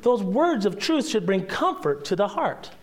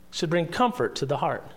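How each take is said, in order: First: Said in the usual way. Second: Soft repeat. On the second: Shown as a demonstration. Pastor repeats the point to his congregation, soft and quieter. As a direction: echo it back softly, leaning on bring.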